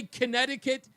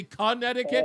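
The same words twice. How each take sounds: First: "Connecticut" as the disputed version; "Connecticut" in protesting question; questioned mispronunciation. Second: "Connecticut" as the demanded version; "Connecticut" carefully echoing a correction; supposed pronunciation. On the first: Retold or imitated. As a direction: repeat "Connecticut" as the accused way, higher. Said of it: "Did I say Connecticut". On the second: Shown as a demonstration. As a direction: say "Connecticut" as told to, questioningly. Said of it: "I'm supposed to say Connecticut".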